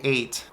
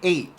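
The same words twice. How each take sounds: First: The final T is fully pronounced. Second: The final T becomes a glottal stop. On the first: "I don't say eight" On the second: "You drop the T and replace it with a glottal stop"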